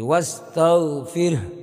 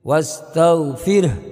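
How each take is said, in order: Both takes have the same delivery.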